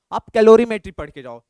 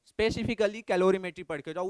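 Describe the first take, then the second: First: calorimetry पढ़ के जाओ called out loud; a loud push to read calorimetry; emphatic advice. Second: Said in the usual way. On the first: Real, not acted. Teacher stresses must-read topic. (ज़ोर से कहा गया calorimetry पढ़ के जाओ)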